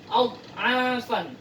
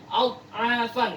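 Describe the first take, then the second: No difference in how they are said.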